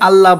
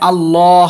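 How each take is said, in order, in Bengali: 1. l-এর পরের স্বরধ্বনিটি ছোট। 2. l-এর পরের স্বরধ্বনিটি টেনে পড়া হয়। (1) "অনেকে আল্লাহ বলে" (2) "লামে একালিফ টান হবে"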